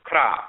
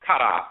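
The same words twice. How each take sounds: First: Kra as one syllable; contracted form. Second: Kara in two syllables, KA-RA; full two-syllable form. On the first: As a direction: run K straight into R in Kra. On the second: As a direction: say Kara with a vowel between K and R. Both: Shown as a demonstration. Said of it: "it's also pronounced Kara or Kra".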